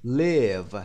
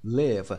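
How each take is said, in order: First: "Live" said with a short i, clipped and falling; model pronunciation. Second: "live" slow with a short i and falling tune; pronunciation repeated. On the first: Teacher shows students how to say "Live", with a short vowel. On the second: Teacher repeats "live" for students, slow with a short vowel. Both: Shown as a demonstration. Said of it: "تلفظش live".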